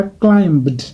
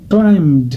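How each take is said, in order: First: Climbed with an audible B before the D; wrong sounded B. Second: Climbed going straight from M to a voiced D; silent B, D ending. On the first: Teacher showing learners the mistake, climbed with B pronounced. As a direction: say climbed as klaim-bd. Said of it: "Ça n'est pas climbed". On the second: Teacher correcting learners, climbed said with silent B. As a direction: say climbed as klaimd, one syllable. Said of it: "C'est climbed". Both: Shown as a demonstration.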